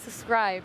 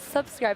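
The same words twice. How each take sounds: First: The b sound is left out. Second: The b sound is clearly pronounced. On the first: "without the B. / the B is silent" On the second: "it's subscribe"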